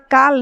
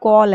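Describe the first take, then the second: First: The vowel is a flat open 'aa' sound. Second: The vowel is a rounded 'aw' sound. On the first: The speaker calls it wrong. "ये हमारा काल नहीं" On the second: The speaker calls it right. "ये हमारा कॉल है"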